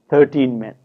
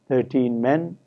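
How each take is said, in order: First: The stress in thirteen is on thir. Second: The stress in thirteen is on teen. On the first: The speaker calls it right. "we hear thirteen men" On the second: The speaker calls it wrong. "rather than thirteen men"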